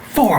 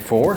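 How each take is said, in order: First: The pitch falls at the end, like a statement. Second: The pitch rises at the end, like a question. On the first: The speaker sounds confident in the result. The speaker calls it right. "Say four" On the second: The speaker sounds unsure of the result. The speaker calls it wrong. "Don't say it like a question"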